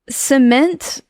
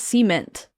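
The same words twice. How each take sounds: First: The stress is on the second syllable. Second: The stress is on the first syllable. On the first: This is how most people say it. "cement is how most people say it" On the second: This is how the speaker was raised to say it. "but I was raised cement"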